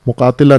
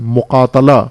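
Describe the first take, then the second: First: The vowel after t is 'i'. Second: The vowel after t is 'a'. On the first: The speaker calls it wrong. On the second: The speaker calls it right.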